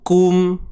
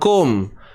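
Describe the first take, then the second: First: The syllable is neat and controlled. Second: The syllable is forced and sounds harsh. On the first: The speaker calls it right. "disiplin, kemaskan bunyi dia" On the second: The speaker calls it wrong. "Jangan kum. ... marah benar bunyinya"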